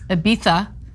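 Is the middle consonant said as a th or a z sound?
th. The middle consonant is a lisped th sound. The speaker calls it right. "the correct pronunciation"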